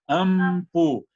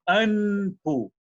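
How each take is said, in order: First: The lips close for an m before p. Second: The nasal is an n, lips stay open. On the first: The speaker calls it wrong. "A gente fecha o lábio, né, faz o M" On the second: The speaker calls it right. "Aqui não é ampu, é anpu"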